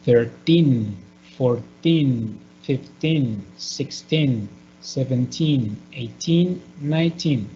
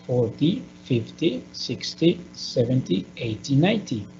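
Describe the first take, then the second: First: Put-on thirteen to nineteen, each with weight on teen and a falling close; stress on teen. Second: Forty, fifty, sixty said softer, the first part stressed and the end rising; stress at the start. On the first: Teacher drilling the teen numbers, stress at the end. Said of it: "So the stress is going to be at the end". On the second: Teacher contrasting the ty numbers, stress on the first part. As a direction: keep the ty ending light. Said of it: "do you notice that the stress is different?". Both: Shown as a demonstration.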